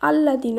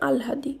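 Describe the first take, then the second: First: A double l with no h sound. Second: An h sound follows the l. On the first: The speaker calls it wrong. "আল্লাদি নয়" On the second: The speaker calls it right. "এর শুদ্ধ উচ্চারণ আলহাদি"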